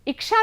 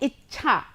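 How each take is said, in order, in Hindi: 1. बीच का व्यंजन 'ksh' संयुक्त ध्वनि है। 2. बीच का व्यंजन एक महाप्राण 'chh' ध्वनि है। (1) "इच्छा नहीं होता" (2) "अब यह है इच्छा"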